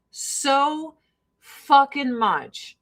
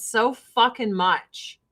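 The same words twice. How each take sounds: First: "So fucking much" slowed right down, with pauses; drawn-out emphasis. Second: Said in the usual way. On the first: Real, not acted. Repeats slowly for emphasis.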